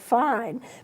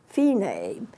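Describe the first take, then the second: First: It rhymes with 'line', one syllable. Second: It is said in two syllables, 'fee-nay'. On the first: The speaker calls it wrong. "Fine is spelled F I N E, like fine" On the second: The speaker calls it right. "but it's pronounced fine"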